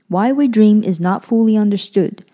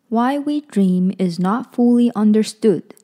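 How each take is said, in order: First: It is read at a quicker pace. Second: It is read at a slower pace.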